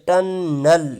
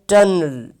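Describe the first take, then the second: First: A full vowel is heard before the final L. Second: The final L is syllabic, with no vowel before. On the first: The speaker calls it wrong. "टनल को हम इस तरह नहीं पढ़ेंगे" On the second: The speaker calls it right. "इसको हम पढ़ेंगे टनल"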